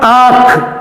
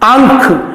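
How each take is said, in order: First: Only the vowel is nasalized, with no consonant. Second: A nasal consonant is heard before the kh sound. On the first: "इसके पीछे कोई भी ध्वनि जो नासिका के सहयोग से बोली जाए नहीं लानी है" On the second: "अनुस्वार होता तो इसके उच्चारण में आंख और ख के बीच में ध्वनि आती है"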